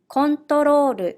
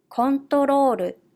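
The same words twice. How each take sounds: First: It is said with Japanese katakana pronunciation. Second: It is said with Japanese katakana pronunciation.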